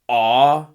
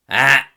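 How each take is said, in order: First: The vowel is said with a constricted pharynx. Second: The vowel is said with a harsh, strident voice.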